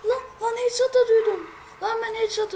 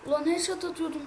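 First: High, loud outburst of frustration; shouting at the game in frustration; frustrated yell. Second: Said in the usual way. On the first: Real, not acted. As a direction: yell it in disbelief at the screen. Frustrated after missed headshot.

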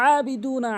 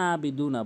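First: Higher আবিদু না from mid-throat; pressed, held first vowel in আবিদু না; correct ayn. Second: আবিদু না with a plain open a; ordinary lower-pitched আবিদু না; mispronounced without ayn. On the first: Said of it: "আইনের উচ্চারণ হলকের মাঝখান থেকে". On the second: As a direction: say আবিদু না without any throat squeeze. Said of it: "এই ভুলটা যে পঁচানব্বই percent". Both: Shown as a demonstration.

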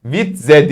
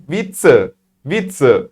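First: Slow "Witze" as vit-ze; wrong reading. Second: "Witze" as vit-tse; correct German Witze. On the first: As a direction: misread "Witze" with a buzzing z. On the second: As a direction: say "Witze" with a hissed ts. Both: Shown as a demonstration. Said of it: "Witze değil de".

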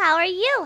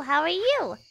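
First: Bright greeting. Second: Said in the usual way. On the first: Shown as a demonstration.

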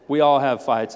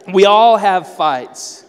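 First: Said in the usual way. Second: Loud, slow punch on every word; emphatic loud slow. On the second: Shown as a demonstration. Preacher drives home the point to the congregation.

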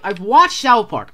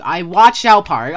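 First: Said in the usual way. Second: Slow and emphatic, stressing watched; firm repeat with weight on watched; insistent, slower. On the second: Real, not acted. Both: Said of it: "I'm telling you".

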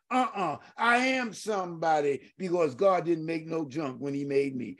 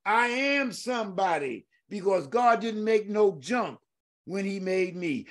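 First: Tearful testimony. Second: Said in the usual way. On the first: Real, not acted. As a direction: voice catching with tears. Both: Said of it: "those words mean a lot to me".

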